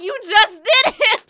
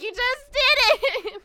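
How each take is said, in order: First: Loud, high mock-angry yell; angry, louder. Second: Slow, high, loud yell, breaking into laughter; louder, laughing. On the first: Annoyed lady yelling at a worker, loud mock anger. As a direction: shout it like she caught you lying. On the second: Retold or imitated. Retelling the lady's outburst, laughing and slow. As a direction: laugh while playing her outrage. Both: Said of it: "she got louder and angrier".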